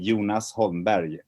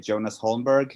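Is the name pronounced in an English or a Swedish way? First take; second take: Swedish; English. First: The name is said with Swedish-style pronunciation. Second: The name is said with English-style pronunciation. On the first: It is the native form for Swedish listeners. "if I talk to Swedish people, I say" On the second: It is adapted for American listeners. "when I speak to Americans, I usually say"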